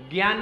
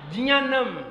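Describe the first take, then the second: First: ज्ञान said with g, "gyaan"; rejected pronunciation. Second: ज्ञानम said as "jnyaanam", j first, pitched up; corrected pronunciation. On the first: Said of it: "ज्ञान नहीं पढ़ेंगे". (ज्ञान को "ग्यान" पढ़ते हुए) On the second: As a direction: say ज्ञानम with j and a nasal y, not g. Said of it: "क्या पढ़ेंगे?". (ज्ञानम को "जियानम" जैसा, ज से पढ़ते हुए) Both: Shown as a demonstration.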